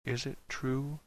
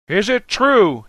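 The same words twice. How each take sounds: First: Very soft, hushed question; almost a whisper. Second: High, rousing shouted question; shouting. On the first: Dan asks one cast member, almost whispering. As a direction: ask it barely above a whisper. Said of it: "so low it was almost a whisper". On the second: Dan at the podium, shouting to the crowd. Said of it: "shouting now". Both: A narrator's reading.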